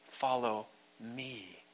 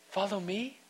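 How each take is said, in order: First: It is said in a firm, stern tone. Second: It is said in a soft, gentle tone.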